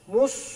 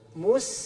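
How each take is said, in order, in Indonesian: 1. Bunyi s-nya tebal dan emfatik, seperti di "sad". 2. Bunyi s-nya tipis dan biasa, seperti di "sin". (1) "mus sod" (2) "mus sin"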